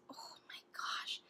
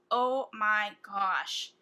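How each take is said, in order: First: Awed breathless whisper. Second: Slow, louder and amazed; drawn-out awe. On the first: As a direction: whisper it in amazement. Awed by the swatch. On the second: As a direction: stretch out every word. Picturing a fall look. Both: Real, not acted.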